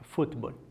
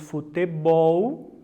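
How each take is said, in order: First: The stress is on the first syllable. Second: The stress is on the last syllable. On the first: "a primeira sílaba é a sílaba tônica" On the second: "Temos a última sílaba como sílaba tônica"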